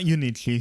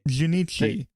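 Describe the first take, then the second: First: The name begins with a vowel sound. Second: The name begins with a J sound. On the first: The speaker calls it wrong. "not not Unichi" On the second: The speaker calls it right. "it's Junichi"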